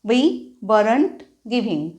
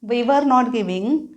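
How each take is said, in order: First: Were and not merge into one word, weren't. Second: Were and not are said as two full words.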